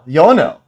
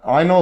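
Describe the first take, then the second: First: The name begins with a 'yo' sound. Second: The name begins with an 'eye' sound. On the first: The speaker calls it right. "Einol is actually pronounced Yonel" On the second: The speaker calls it wrong. "I've been calling him Einol Dinu the whole time"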